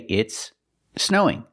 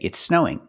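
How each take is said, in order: First: The two words are said apart. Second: The two s sounds blend into one. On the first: "you can separate the words" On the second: "It's more common to link the words"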